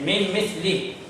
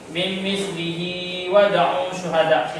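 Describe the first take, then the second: First: The recitation stops on the word with a short ending. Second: The recitation continues through the phrase without stopping. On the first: "bolehlah kita berhenti dengan hak dhamir yang pendek" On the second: "Itu terlebih baik"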